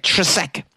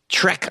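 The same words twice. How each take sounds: First: TRESEK as tre-SEK, two syllables, questioning lift; tentative two-syllable pronunciation. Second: TREK as one short syllable, like "trek"; simplified one-syllable pronunciation. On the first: Host attempting a patron's surname, tentative: "Tresek" as tre-SEK. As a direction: try "Tresek" with an extra syllable. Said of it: "I can't say this last name". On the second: Host giving up on a patron's surname, simplifying: "Trek" in one syllable. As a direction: settle on "Trek", no middle vowel. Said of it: "I'm just gonna call you Trek". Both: Real, not acted.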